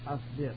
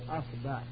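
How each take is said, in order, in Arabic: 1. الحركة بعد الباء هي i. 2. الحركة بعد الباء هي a. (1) "الفتح والضم والكسر" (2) "أول افتح الهمزة ... الفتح والضم والكسر"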